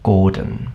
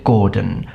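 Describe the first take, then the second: Both takes have the same delivery.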